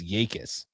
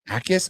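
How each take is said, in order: First: The name begins with a Y sound. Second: The name begins directly with a vowel. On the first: "like a Y" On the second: "The J is silent"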